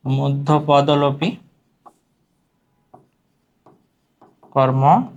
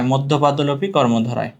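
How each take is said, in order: First: Stretched term, long pause midway; slow dictation. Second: Said in the usual way. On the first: Shown as a demonstration. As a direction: dictate it piece by piece. Term repeated while writing it. (টেনে টেনে, থেমে থেমে বলা)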